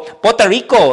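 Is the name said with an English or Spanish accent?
Spanish. The name is said with a Spanish accent. The speaker calls it wrong. "I'm not going to talk like this and then go"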